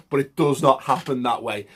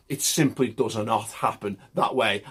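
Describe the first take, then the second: First: Said in the usual way. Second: Put-on a light passing Italian accent; faint Italian-accented phrasing. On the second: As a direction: slip into a hint of an Italian accent on this line. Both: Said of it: "I went a bit Italian there".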